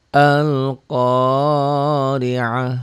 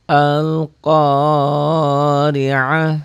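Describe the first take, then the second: The two takes are said the same way.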